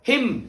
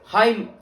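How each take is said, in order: First: The vowel is a short 'i' sound. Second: The vowel is a long 'eye' sound.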